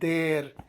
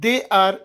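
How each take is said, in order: First: The words are run together as one. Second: Two separate words are said in full.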